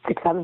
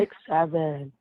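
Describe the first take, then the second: First: It is said fast. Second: It is said slowly.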